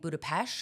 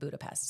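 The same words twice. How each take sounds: First: It is said with a local-sounding pronunciation. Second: It is said with a plain English pronunciation. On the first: This is how the city's own people say it. The speaker calls it right. "that's how you say it apparently" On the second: This is the usual anglicized way of saying it. The speaker calls it wrong. "apparently I'm saying it wrong because I'm saying Budapest"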